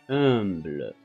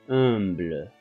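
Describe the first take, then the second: The two takes are said the same way.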